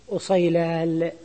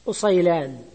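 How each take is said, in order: First: أصيلال slowly, ending in L instead of N; substituted final lam. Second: أصيلان ending in a clear N, "usaylan"; original final nun. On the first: Teacher showing the irregular substitution, أصيلال said slowly with final L. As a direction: draw out أصيلال and close on lam. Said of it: "لكنهم أبدلوا النون". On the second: Teacher giving the original diminutive, أصيلان said with final N. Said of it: "لكنهم أبدلوا". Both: Shown as a demonstration.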